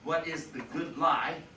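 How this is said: It is asked in a sober, earnest tone. The question asks how one ought to live. "as when it's meant one way by serious people who are considering questions of justice"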